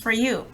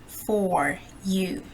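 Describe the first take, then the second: First: The word 'for' has a weak schwa. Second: The word 'for' has a full vowel. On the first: The speaker calls it right. "Some sentences with a schwa sound" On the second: The speaker calls it wrong. "I didn't say for you"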